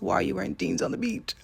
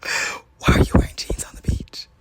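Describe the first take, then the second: First: Said in the usual way. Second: Gasp, then a forceful stage whisper; mock-shocked whisper. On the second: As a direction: whisper it as if scandalized. Gasps, repeats question in mock shock.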